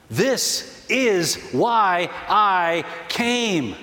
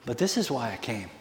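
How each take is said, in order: First: "This is why I came" very slow, each word apart; emphatic repeat. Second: Soft, low and understated; hushed quote. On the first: Preacher driving home "This is why I came", slow word-by-word emphasis. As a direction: land every word of "This is why I came" separately and slowly. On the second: Preacher quoting Jesus on his purpose, hushed. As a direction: say it quietly and low, letting it sink in. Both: Acted.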